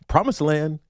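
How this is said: The pitch rises at the end. It sounds uncertain, like a question. "it's like a question mark"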